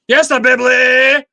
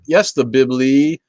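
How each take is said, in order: First: It is said loudly, as a yell. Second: It is said at a normal, quiet volume.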